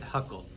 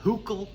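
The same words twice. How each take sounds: First: The name is said with an English-style vowel. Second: The name is said with a German-style vowel. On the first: This is a simplified everyday way of saying it. "But I just pronounce it Huckel" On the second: This is how the name is properly said. "technically he's uh"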